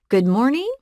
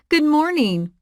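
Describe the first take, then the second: First: It sounds like a question. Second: It sounds warm and friendly.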